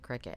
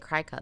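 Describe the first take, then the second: First: The first syllable sounds like 'crick'. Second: The first syllable sounds like 'cry'. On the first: This is how most people say the name. "everybody calls it a Cricut" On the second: This is how the name looks when read. "I want to say Cry Cut because that's how it reads"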